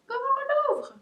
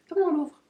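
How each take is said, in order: First: Very high, loud playful squeal; squeaky repeated question. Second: Louder, higher playful question; playful puzzlement. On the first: Puzzling over the treat stick, high squeaky question. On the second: Puzzling over the treat stick, loud playful question. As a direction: ask it loudly, playfully puzzled. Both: Real, not acted.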